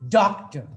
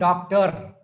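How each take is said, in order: First: The stress is on the first syllable only. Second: Both syllables get equal stress and force. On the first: The speaker calls it right. "we say doctor" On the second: The speaker calls it wrong. "not doctor"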